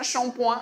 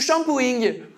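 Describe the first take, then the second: First: The word is pronounced with French sounds. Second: The word is pronounced with English sounds. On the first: The speaker calls it right. "C'est comme le mot coin" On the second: The speaker calls it wrong. "il fallait prononcer tous ces mots-là à l'anglaise"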